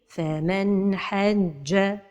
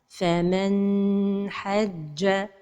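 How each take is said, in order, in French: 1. Le son n est court, clair et fluide. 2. Le son n est tenu pendant un long moment. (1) "la prononciation correcte" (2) "La deuxième erreur, c'est de prolonger son temps"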